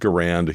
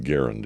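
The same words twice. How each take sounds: First: The stress is on the second syllable. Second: The stress is on the first syllable. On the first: This is how most people say it. "everybody calls it a Garand" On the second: This follows the designer's own name. "rhymes with errand"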